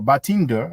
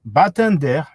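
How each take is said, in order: First: The name is said with an English accent. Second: The name is said with a French accent.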